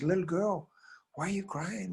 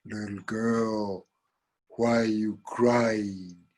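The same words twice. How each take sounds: First: High, soft cat voice; concerned cat. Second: Very slow, drawn-out cow voice. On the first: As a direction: ask gently in a high little voice. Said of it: "The cat says". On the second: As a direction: stretch each word like a ponderous cow. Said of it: "who shows up but the cow". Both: Acted.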